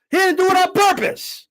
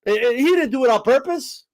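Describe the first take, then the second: First: Higher, whiny mock of the excuse; mocking echo. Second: Said in the usual way. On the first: Host mocking a guest's excuse, whiny parroting voice. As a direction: parrot the excuse back in a silly voice.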